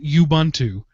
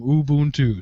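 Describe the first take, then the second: First: Each of its vowels has a different sound. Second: All of its vowels share the same sound. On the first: The speaker calls it wrong. "It's not Ubuntu, where each one has its own separate sound" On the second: The speaker calls it right. "They're all the same"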